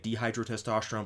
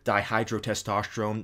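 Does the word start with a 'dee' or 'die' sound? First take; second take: dee; die. First: The first syllable sounds like 'dee'. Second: The first syllable sounds like 'die'. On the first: The speaker calls it wrong. "I used to say dehydrotestosterone, but then somebody pointed out to me it's actually not pronounced that way" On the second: The speaker calls it right. "the only reason I stumbled when saying dihydrotestosterone"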